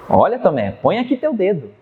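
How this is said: It sounds challenging and defiant.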